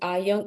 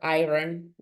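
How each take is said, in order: First: The word is said without any R sound. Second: The word is said with an R sound. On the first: The speaker calls it right. "it's always ion" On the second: The speaker calls it wrong. "it's never iron"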